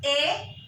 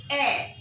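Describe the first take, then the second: First: "a" like the English letter name, "ay"; wrong vowel for est. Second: "a" as a short open "eh"; correct French est. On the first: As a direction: say "a" as a long "ay". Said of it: "it is not a". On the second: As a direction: say "a" as "eh", without a glide. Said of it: "it is a". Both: Shown as a demonstration.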